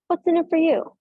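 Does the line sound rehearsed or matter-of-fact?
rehearsed. It sounds rehearsed and performed.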